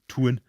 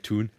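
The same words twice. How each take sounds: First: The u vowel is strongly overpronounced. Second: The u vowel is said more smoothly. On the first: This is how Newcastle speakers say it. "they would go the tune, like that" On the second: This is how South Shields speakers say it. "Whereas I would say tune"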